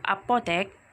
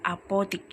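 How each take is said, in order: First: The last syllable is said with an 'e' vowel. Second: The last syllable is said with an 'i' vowel. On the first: This is the standard, formal form. The speaker calls it right. "Kata baku apotek" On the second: This is the non-standard, everyday form. The speaker calls it wrong. "kata tidak baku adalah apotik"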